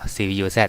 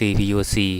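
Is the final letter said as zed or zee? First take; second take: zed; zee. First: The final letter is said as zed. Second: The final letter is said as zee. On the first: This is the old-fashioned way of reading it. "ผมคนโบราณยังอ่านว่า Z" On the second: This is the newer way of reading it. "หรือว่า CPU C"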